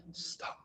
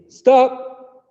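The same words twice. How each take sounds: First: Voiceless whispered stop. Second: Shouted stop, much higher and louder. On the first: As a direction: hush it like a secret. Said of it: "say it quietly". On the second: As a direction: shout it across the room. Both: Shown as a demonstration.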